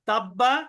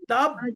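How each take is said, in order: First: It flows on to a final vowel without a bounce. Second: It stops on the consonant with an echoing bounce. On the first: "তাব্বা কলকলা হবে না" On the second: "আমি যদি এখানে থেমে যাই"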